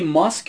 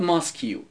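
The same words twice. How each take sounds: First: Said in the usual way. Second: ماسکیو with an extra "yu" tacked on the end; mispronounced "mask". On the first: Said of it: "کلمهٔ". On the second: Retold or imitated. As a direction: say ماسکیو as two parts, "mask-yu", imitating a teacher's error.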